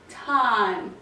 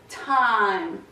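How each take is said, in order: The two takes are said the same way.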